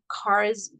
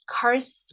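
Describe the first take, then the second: First: The word ends with a buzzing Z sound. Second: The word ends with a hissing S sound. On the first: "with a Z" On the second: "with an S"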